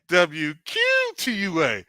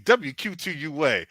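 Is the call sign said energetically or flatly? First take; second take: energetically; flatly. First: It is said with lively, showy energy. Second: It is said in a plain, ordinary voice. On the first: The speaker calls it right. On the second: The speaker calls it wrong.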